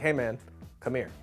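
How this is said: There is a pause before "come here".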